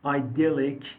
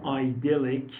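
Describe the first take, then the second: First: Idyllic said the British way, ih-DIL-ik; teacher demonstrates idyllic in British English, ih-DIL-ik; British pronunciation. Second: Idyllic said the American way, eye-DIL-ik, slowly; slow American idyllic with a long eye sound, eye-DIL-ik; American pronunciation. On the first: Teacher shows students the British idyllic, said carefully. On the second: Teacher shows students the American idyllic, slow and careful. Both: Shown as a demonstration.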